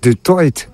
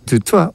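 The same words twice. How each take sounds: First: The name is pronounced with Afrikaans sounds. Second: The name is pronounced with French sounds. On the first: The speaker calls it right. "on dit du toit" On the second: The speaker calls it wrong. "on ne dit pas du toit"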